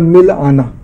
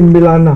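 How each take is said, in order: First: A short pause splits it into two parts. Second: It is said smoothly with no break. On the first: Go and meet me. "अगर इसके बीच में थोड़ा विराम हो जाए" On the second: Introduce me to someone. "जैसे मिलाना शब्द है"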